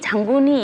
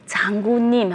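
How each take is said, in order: First: The final nasal drops, ending in plain i. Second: The word ends clearly with the syllable nim. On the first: A small child cannot yet pronounce it exactly. "장군이 이렇게 얘기해요. 그러니까 발음을 정확하게 못하더라도" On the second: This is how an adult says the word. "장군님 하면"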